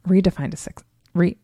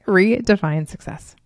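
First: "redefine a suc-" fumbled and broken off; botched "redefine a suc-", cut short; stumbling over words. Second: "Redefine success" said cleanly and completely; careful, complete "Redefine success"; saying it right. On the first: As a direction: trip on "suc-" and restart with "re-". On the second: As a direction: land "Redefine success" deliberately after a slip. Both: Real, not acted. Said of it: "I guess I could say it, right?".

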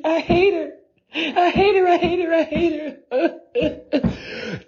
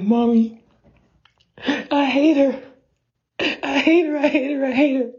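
First: Put-on even higher, near-crying child's wail; high crying tantrum, slowing at the end; serious tantrum. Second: Put-on high whiny little-kid voice, much higher; high, whining tantrum; child's tantrum. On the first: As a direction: wail it like a kid breaking into tears. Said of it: "Like, on some serious". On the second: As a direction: stomp your feet and whine to mommy like a kid. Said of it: "As I'm stomping my feet".

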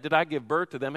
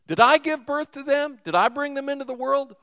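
First: Said in the usual way. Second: Pitched-up exasperated outcry; exasperated Moses. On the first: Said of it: "I love that". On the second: Retold or imitated. Moses crying out to the Lord in exasperation. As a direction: let the frustration burst out at God. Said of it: "And Moses said to the Lord".

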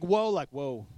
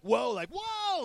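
First: Awed whoa. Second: Sharp high startled whoa; freaked-out whoa. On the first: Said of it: "It's like". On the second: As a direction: gasp it out like something spooked you. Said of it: "Now, not like". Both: Retold or imitated.

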